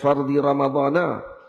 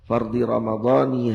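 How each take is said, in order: First: The word Ramadhan ends with an 'a' vowel. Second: The word Ramadhan ends with an 'i' vowel. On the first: The speaker calls it wrong. "Jangan fardi ramadhana" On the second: The speaker calls it right. "mesti dibaca dengan jar, yang dibaca dengan baris kasrah"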